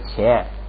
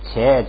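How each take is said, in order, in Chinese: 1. 第一个辅音有明显的送气。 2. 第一个辅音不送气。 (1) "本来这个后边这个是读送气的" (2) "放在第二音节呢就不能送气了"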